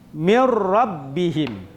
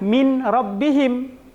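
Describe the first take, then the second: First: The n vanishes and merges into a doubled r. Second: The n is pronounced clearly before the r. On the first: The speaker calls it right. "seakan-akan nun ini hilang" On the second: The speaker calls it wrong. "Jadi kita tidak membacanya dengan min rabbihim"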